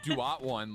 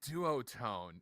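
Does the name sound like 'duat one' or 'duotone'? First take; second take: duat one; duotone. First: The name sounds like 'duat' followed by 'one'. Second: The name sounds like the single word 'duotone'. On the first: The speaker calls it wrong. "I've been saying Duat one" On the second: The speaker calls it right. "that makes so much more sense"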